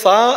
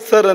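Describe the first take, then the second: First: It ends in a long vowel with no r. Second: It ends with an audible r sound. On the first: This is how the English say it. "ಅವ್ರು ಹೇಳುವಾಗ ಸಾ ಹೇಳ್ತಾರೆ, ರು ಅದು ಹೇಳ್ತಾರೋ ಇಲ್ವೋ" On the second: This is how Indians say it. "ನಾವು ಭಾರತೀಯರು ಸರ್ ಅಂತ ಹೇಳ್ತೇವೆ, ರು ಕೇಳ್ತದೆ"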